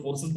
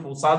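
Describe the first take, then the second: First: "फोर्सेस" with an "e" in the last syllable; "फोर्सेस" ending on a "ses" sound, without a long "aa"; variant pronunciation. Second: "फोर्सास" with a long "aa" in the last syllable; "फोर्सास" ending on an open "saas" sound; variant pronunciation. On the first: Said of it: "कुछ लोग फोर्सेस बोलते हैं". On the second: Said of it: "कुछ लोग फोर्सास बोलते हैं". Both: Shown as a demonstration.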